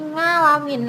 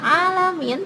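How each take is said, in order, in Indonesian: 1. Kata ini dimulai dengan bunyi ng. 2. Kata ini langsung dimulai dengan vokal. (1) "tetapi jadi ngalamin" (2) "bukan alamin"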